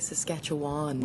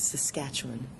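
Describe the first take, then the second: First: The final syllable has a full, clear vowel. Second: The final syllable has a reduced schwa vowel. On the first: It marks the speaker as an outsider. The speaker calls it wrong. "You're a dead giveaway for a foreigner" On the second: It is how locals say it. The speaker calls it right. "it is a schwa at the end of that word"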